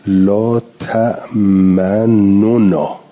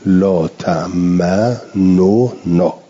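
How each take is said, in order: First: The two n sounds are pronounced separately. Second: The two n sounds are pronounced separately.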